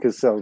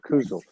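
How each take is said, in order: First: The name begins with 'Kass' and an s sound. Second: The name begins with 'Kooz' and a z sound. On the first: The speaker calls it wrong. "I've been saying Cassell" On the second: The speaker calls it right. "I'll get the pronunciation right from here out"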